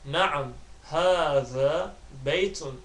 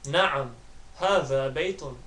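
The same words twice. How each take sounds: First: The phrase is spoken slowly and deliberately. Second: The phrase is spoken at normal fast speed. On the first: "I'll try and say the Arabic slowly on the first two attempts" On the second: "finally I'll say it fast, so well at the average speed"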